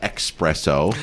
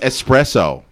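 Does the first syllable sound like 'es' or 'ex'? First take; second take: ex; es. First: The first syllable has a KS sound. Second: The first syllable has a plain S sound. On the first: The speaker calls it wrong. "Not espresso. / people use X's instead of S's" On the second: The speaker calls it right. "It's espresso"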